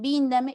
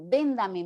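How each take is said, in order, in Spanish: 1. La primera vocal es una 'i' alta. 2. La primera vocal es una 'e' media. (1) "Víndame, muy bien, víndame" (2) "en vez de decir, señor, véndame mangos"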